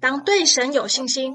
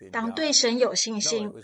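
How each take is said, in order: First: It is said in an exasperated, rebuking tone. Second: It is said in a calm, encouraging tone. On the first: The listeners are being rebuked for slowness. The speaker calls it right. "而更像是这样" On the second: The listeners are being gently encouraged. The speaker calls it wrong. "耶稣并不是这样说"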